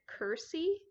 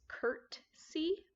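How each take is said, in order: First: The word is said without a T sound. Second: The word is said with a T sound. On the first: "Midgery So pronounces it cursey" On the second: "the proper word is curtsy with a T"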